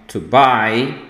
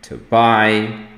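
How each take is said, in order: The two takes are said the same way.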